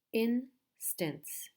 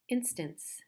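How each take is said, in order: First: "instance" split as in, stance with a gap; syllable by syllable. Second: Said in the usual way. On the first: Shown as a demonstration. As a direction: break "instance" into two slow beats. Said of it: "There are two syllables". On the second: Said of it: "So again, we have".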